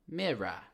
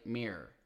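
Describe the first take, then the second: First: It is said with a British pronunciation. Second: It is said with an American pronunciation. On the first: The speaker calls it right. "which sounds like mirror" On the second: The speaker calls it wrong. "Do not say mirror"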